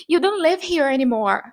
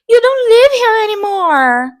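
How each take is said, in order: First: Mildly dramatic TV character quote; series character's line. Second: Hammed-up, drawn-out high shout; mimicking the character. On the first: Retold or imitated. Character in a series speaking, lightly dramatic quote. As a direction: act out the character's line, slightly raised. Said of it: "se a personagem tava falando assim". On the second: Repeating a series line at home, theatrical shout. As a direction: belt it out like an overblown TV drama. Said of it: "repetia exatamente o que a personagem tava falando".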